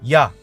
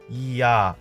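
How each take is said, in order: First: The two vowels are said quickly, merging together. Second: The two vowels are said slowly, heard separately. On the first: The two vowels become one diphthong. "이 단모음을 빨리 한번 발음해 보겠습니다" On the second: The two vowels stay separate. "다시 한번 천천히 발음하면"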